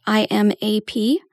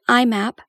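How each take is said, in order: First: "I M A P" with each letter named; spelled out. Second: IMAP said as "I map"; acronym as a word. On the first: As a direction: say I, M, A, P as four separate letters. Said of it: "sometimes pronounced I M A P". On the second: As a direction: run it together as the word "I map". Shows two ways to say acronym. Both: Shown as a demonstration.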